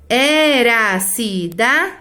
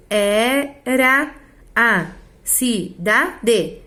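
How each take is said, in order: First: "era a cidade" slow, the two a's merged: e-ra-ci-da, then de; vowels run together. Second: "era a cidade" very slow, syllable by syllable, e-ra-a-ci-da-de; words kept separate. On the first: Teacher showing poetic joining, "era a cidade" as e-ra-ci-da, de. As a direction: join "era a" into one "era", stretching each syllable. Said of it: "se eu pronunciar junto".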